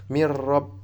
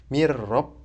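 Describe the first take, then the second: No difference in how they are said.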